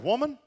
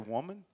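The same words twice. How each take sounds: First: The word is said in a harsh, curt tone. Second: The word is said in a warm, tender tone. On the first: It sounds like a rude way to address someone. The speaker calls it wrong. "he wouldn't have said it like that" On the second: It is an affectionate way to address someone. The speaker calls it right. "in that culture, that was an endearment"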